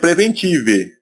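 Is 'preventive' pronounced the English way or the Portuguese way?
Portuguese. The word is said with Portuguese-style sounds. The speaker calls it wrong. "Se fosse aportuguesar a palavra em inglês, seria preventive, mas não é assim que se fala"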